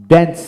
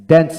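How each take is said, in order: Both takes have the same delivery.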